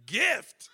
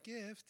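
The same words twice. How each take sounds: First: Louder, higher "Gift?" thrown back in disbelief; incredulous. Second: Much softer "Gift." accepted without argument; meek acceptance. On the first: Son doubting his mom's answer, incredulous. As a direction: question "Gift?" as if it makes no sense. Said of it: "Of course, I didn't say that to my mom". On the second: Son quietly accepting what his mom said, meek. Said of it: "I was like". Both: Retold or imitated.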